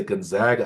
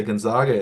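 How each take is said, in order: First: Gonzaga with a short A, gon-ZAG-a; insisted-on Gonzaga. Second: Gonzaga with a broad AH, gon-ZAH-ga; old-fashioned Gonzaga. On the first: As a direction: say Gonzaga with the middle vowel of "bag". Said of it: "they always say Gonzaga". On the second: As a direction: say Gonzaga with the middle vowel of "father". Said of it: "you don't hear anybody say Gonzaga anymore". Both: Shown as a demonstration.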